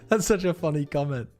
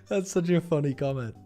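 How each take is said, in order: The two takes are said the same way.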